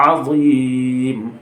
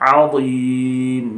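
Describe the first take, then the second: The two takes are said the same way.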